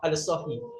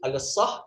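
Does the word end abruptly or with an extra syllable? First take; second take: extra syllable; abrupt. First: The word ends with an extra short syllable. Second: The word ends abruptly on the h sound. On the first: Be quiet and stop talking. "kalau sahih mabni ala kasrah" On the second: Be completely still and stop moving. "Kalau sah mabni ala sukun"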